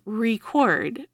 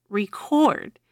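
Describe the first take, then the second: First: "record" said REcord, first syllable stressed, rising at the end. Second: "record." said reCORD, second syllable stressed, falling. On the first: Teacher contrasting word stress, noun first. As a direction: hit the RE of "record". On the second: Teacher contrasting word stress, verb second. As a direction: lean on the CORD of "record.". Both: Shown as a demonstration. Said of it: "Say, "record" versus "record".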